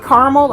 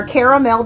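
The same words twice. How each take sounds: First: Caramel said as CAR-mul, middle vowel dropped; two-syllable caramel. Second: Caramel said as CARE-uh-mel, every syllable sounded; three-syllable caramel. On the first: Reviewer offering one way to pronounce a note, caramel as CAR-mul. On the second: Reviewer offering the other way to pronounce it, caramel as CARE-uh-mel. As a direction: say caramel in full, "KAIR-a-mel". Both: Shown as a demonstration. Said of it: "depending on how you pronounce it".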